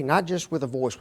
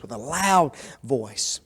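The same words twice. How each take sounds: First: Said in the usual way. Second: "loud" stretched out and stressed. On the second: Shown as a demonstration. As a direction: lean slowly on "loud".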